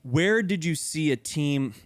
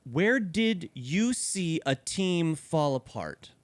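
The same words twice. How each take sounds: First: Slow reading. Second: Slow, drawn-out reading. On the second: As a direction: draw the question out slowly. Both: Shown as a demonstration. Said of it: "question number three".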